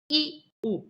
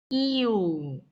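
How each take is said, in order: First: The two vowels are separated by a break. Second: The vowels blend into one gliding syllable. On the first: "이렇게 끊어서 발음하는" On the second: "반모음이 결합해서 이오"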